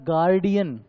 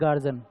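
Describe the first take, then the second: First: It is said as three syllables, guardian. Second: It is said as two syllables, garjan. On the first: The speaker calls it right. "उसको बोला जाता है गार्डियन" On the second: The speaker calls it wrong. "आप बोलते हो ना गार्जन गार्जन"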